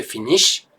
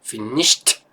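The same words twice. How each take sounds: First: "finish" ending on sh, no t; plain "finish" with nothing after the sh; no final t. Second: "finished" ending in a crisp t; final t. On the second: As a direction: stress the t at the end of "finished". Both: Shown as a demonstration. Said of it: "Pour différencier de finish".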